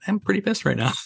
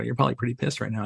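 First: High-pitched mock pissed-off reply; mock exasperation. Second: Quick teasing aside from the crew; crew teasing quickly. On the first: Trainer answering his crew's teasing in a high mock-annoyed voice. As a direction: squeak it up high in joking annoyance. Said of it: "I go". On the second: Retold or imitated. Crew ribbing the trainer, said fast and light. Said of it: "And they go".

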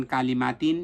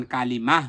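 First: কালিমাতিন with the last letter sounded as tin; continuing form. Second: কালিমাহ ending in a breathed h, no tin; pausal h ending. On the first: Teacher contrasts the unpaused form, ending in tin. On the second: Teacher shows stopping on round ta, ending in h. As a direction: stop on কালিমাহ with a final h. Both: Shown as a demonstration. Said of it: "গোলতাটা হা উচ্চারণ হয়".

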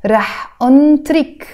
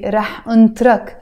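First: أنطرك ending in "-trik"; feminine ending. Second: أنطرك ending in a short "-trak"; masculine ending. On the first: Teacher on waiting for a girl, feminine "-ik" ending. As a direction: say أنطرك as "untrik", with an ee sound. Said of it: "If I'm waiting for a girl". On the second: Teacher on waiting for a guy, masculine "-ak" ending. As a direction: say أنطرك as "untrak", with an a. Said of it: "That's if I'm waiting for a guy". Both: Shown as a demonstration.

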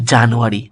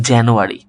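First: Said in the usual way. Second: জানুয়ারি opening on "jæ", not "ja"; front-vowel January. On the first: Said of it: "এই যে আমরা বলি". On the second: Shown as a demonstration. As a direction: say জানুয়ারি as "jæ-nu-ari". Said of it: "উচ্চারিত হবে কি". (জানুয়ারি-কে "জ্যানুয়ারি" উচ্চারণ)

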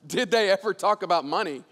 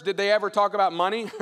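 First: Amused echo. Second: Said in the usual way. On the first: Acted. Laughing echo of the question.

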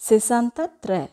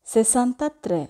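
The two takes are said the same way.

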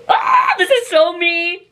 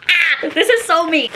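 First: Slow, higher exaggerated gush with a laugh; put-on gushing voice. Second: Said in the usual way. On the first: Shown as a demonstration. Vlogger unboxing a top, gushing in a put-on voice. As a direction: ham up the excitement in a funny put-on voice. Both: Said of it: "I don't know why I'm talking like that".

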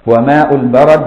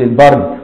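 First: البرد as "al-barad", with an open "a" after the ra; fatha on the ra. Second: البرد as "el-bard", no vowel after the ra; mistaken reading, silent ra. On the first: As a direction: say البرد in two open syllables, "ba-rad". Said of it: "بفتح الراء". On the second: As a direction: say البرد as one closed syllable, "bard". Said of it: "لحسن تقول". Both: Shown as a demonstration.

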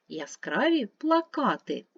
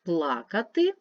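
First: Плакати stressed on the second syllable, пла-КА-ти. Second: Плакати with stress on the first syllable, ПЛА-кати. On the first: Teacher contrasting stress for pupils: пла-КА-ти. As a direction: say плакати as пла-КА-ти, meaning posters. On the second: Teacher contrasting stress for pupils: ПЛА-кати. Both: Shown as a demonstration. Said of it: "змінюється значення слова".

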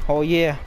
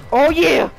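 First: Said in the usual way. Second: Louder, higher hype shout; excited shout. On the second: Real, not acted. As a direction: belt it out, hyped. Repeats oh yeah louder.

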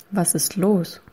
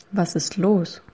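No difference in how they are said.

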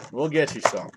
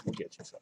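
First: Said in the usual way. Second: Whispered repeat, nearly silent. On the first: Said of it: "repeats line". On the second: Shown as a demonstration. Streamer whispering the promise back to a viewer, whispered. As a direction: breathe it out as a whisper. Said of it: "repeats line in whisper".

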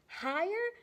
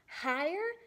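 The two takes are said the same way.

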